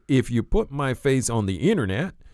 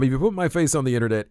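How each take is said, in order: First: It is said with an imitated southern drawl. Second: It is said in the speaker's ordinary accent.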